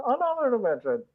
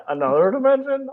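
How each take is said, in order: First: Higher robot echo on "another dimension". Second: Stiff robot voice saying "another dimension". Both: Pretend. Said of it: "You have to say it in a robot voice".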